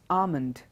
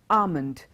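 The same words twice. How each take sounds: First: The L sound is left silent. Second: The same.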